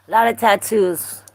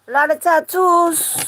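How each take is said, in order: First: Said in the usual way. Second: High silly voice. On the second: Pretend. Repeating a viewer's tattoo line.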